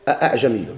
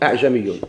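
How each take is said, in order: First: Two full glottal stops are pronounced at the start. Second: Only one glottal stop is pronounced at the start. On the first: "التحقيق" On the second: "القراءة بإسقاط الهمزة الأولى نحيدوها"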